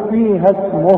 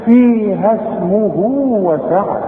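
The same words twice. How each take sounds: First: فيها اسمه stopped short, no madd on اسمه; no elongation. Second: فيها اسمه with the final vowel of اسمه held two counts into وسعة; two-count madd. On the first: Teacher shows stopping on اسمه without lengthening. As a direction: cut اسمه short on the pause. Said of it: "من غير مد". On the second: Teacher shows the two-count elongation, slowly. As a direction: lengthen the hu of اسمه two beats. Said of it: "امد الحرف اللي معايا ده حركتين". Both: Shown as a demonstration.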